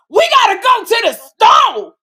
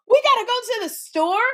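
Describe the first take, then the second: First: Shouted, high, slow mock of Kim's loud line; loud sassy repeat. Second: High, confused question, dim and lost; the clueless echo, rising at the end; dumb blonde. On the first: Retelling how Kim repeated Tisha's line, hammed-up high shout. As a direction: belt it out, hammed-up ratchet sidekick. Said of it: "Kim would go". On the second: Retold or imitated. Retelling her dumb blonde echo of Kim, high confused question. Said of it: "And then I had to go".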